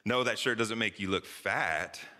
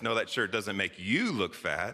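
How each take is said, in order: First: The stress falls on the word fat. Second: The stress falls on the word shirt. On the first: The shirt makes you look some other bad way. "what does it make me look like?" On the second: Something else about the shirt is bad. "what's the matter with the shirt?"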